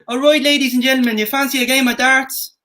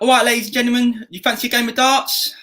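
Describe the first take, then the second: First: It is said in a Southern Irish accent. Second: It is said in an Essex accent.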